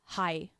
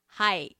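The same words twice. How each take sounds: First: It is said in a plain, neutral tone. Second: It is said in a happy, giddy tone.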